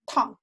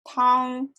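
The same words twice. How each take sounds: First: The pitch falls sharply from high to low. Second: The pitch stays high and level. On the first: It means boiling hot. "For hot" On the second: It means soup. "For soup"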